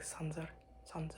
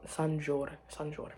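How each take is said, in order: First: "Sanzar" with a buzzing z in the middle; Alex's pronunciation. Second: "Sanjur" with a soft j sound in the middle; speaker's own pronunciation. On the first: Retold or imitated. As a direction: say "Sanzar" with z, not j. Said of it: "but Alex says it's, like". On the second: Shown as a demonstration. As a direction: say "Sanjur" with j, not z. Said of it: "but Alex says it's".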